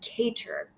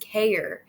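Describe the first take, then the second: First: A clear t sound is in the middle. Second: A glottal stop replaces the middle t sound.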